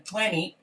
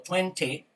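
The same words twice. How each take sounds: First: "twenty" with the second T dropped, like "twenny"; twenty without second T. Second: "twenty" with a crisp second T, "twen-tee"; twenty with both Ts. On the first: Teacher showing students one option, "twenty" with silent second T. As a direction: say "twenty" as "tweny", T silent after the N. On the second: Teacher showing students the other option, "twenty" with both Ts sounded. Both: Shown as a demonstration. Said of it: "twenty o twenty".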